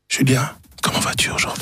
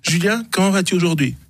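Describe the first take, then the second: First: It is said in a whisper. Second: It is said in a normal voice.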